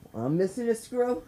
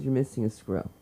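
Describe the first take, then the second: First: Higher, rising disbelief; incredulous echo. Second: Lower, flat-toned policewoman line; deadpan cop. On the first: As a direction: repeat it back, can't believe it. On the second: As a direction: say it like a bored cop stating a fact. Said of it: "She goes". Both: Retold or imitated.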